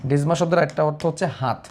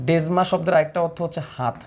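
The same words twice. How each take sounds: Both takes have the same delivery.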